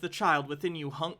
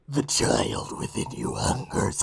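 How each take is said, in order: First: It is read in her normal voice. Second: It is read in a put-on character voice.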